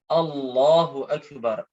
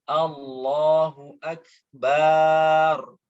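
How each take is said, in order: First: The vowel after b in akbar is short. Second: The vowel after b in akbar is lengthened. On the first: The speaker calls it right. "huruf ba pada lafadz bar tidak dipanjangkan" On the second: The speaker calls it wrong. "Ini salah"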